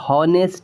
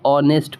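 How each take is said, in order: First: The word begins with an audible h sound. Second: The word begins directly with a vowel sound. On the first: The speaker calls it wrong. "हम इसको हॉनेस्ट नहीं पढ़ेंगे" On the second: The speaker calls it right. "हम इसे ऑनेस्ट पढ़ेंगे"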